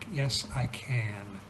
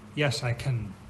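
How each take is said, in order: First: The vowel in 'can' is full and clear. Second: The vowel in 'can' is weak and reduced. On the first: The speaker calls it right. "Then you do pronounce the A" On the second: The speaker calls it wrong. "You wouldn't say"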